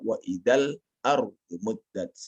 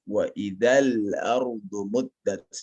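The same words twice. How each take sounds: First: The L sound is cut off abruptly and rushed. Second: The L sound is held smoothly, not cut off. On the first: The speaker calls it wrong. "Jangan dibaca" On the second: The speaker calls it right. "jangan kita terburu-buru ya di dalam menyebutnya"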